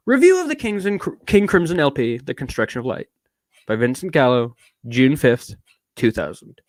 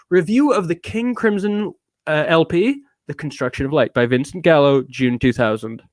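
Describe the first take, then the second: First: Put-on British accent. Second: Said in the usual way. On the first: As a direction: read it in a posh English accent. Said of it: "I'm doing so much British".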